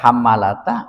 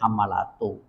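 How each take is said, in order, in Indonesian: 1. Kata itu berakhir dengan vokal 'a'. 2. Kata itu berakhir dengan vokal 'u'. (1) "bisa dibaca hammalata" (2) "bisa dibaca hammalatu"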